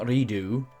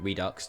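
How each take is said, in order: First: The word ends in an 'oo' sound. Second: The word ends in a 'ks' sound. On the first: "I personally say Redo" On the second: "or Redux, depending on how you like to pronounce that word"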